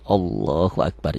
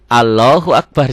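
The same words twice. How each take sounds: First: The 'la' in Allah is thick and rounded. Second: The 'la' in Allah is thin and unrounded. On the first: The speaker calls it right. "dia ada O tebal dan seakan-akan ada wawunya" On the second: The speaker calls it wrong.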